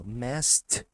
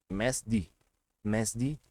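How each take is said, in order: First: Messed punched as "mest"; correct T ending. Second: Messed said as "mésdi"; wrong D ending. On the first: Teacher showing the right sound, messed as "mest". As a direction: end messed on a loud, crisp T. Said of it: "Também vai ter som de T". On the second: Teacher showing how odd it would sound, messed as "mésdi". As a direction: end messed in a voiced "dee". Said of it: "Olha como ia ficar zoado". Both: Shown as a demonstration.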